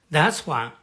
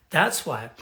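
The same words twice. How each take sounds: The two takes are said the same way.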